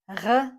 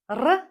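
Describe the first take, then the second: First: The R is a throaty sound at the back. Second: The R is a tongue-tip sound like Spanish R. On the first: The speaker calls it wrong. "This is not R uh, as in French" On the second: The speaker calls it right. "This is R"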